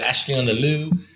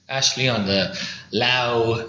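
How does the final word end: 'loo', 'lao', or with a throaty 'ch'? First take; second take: loo; lao. First: The last word ends in a plain 'loo' vowel. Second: The last word ends in an 'ow' vowel. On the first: "A lot of people mess that one up. They say" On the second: "They say"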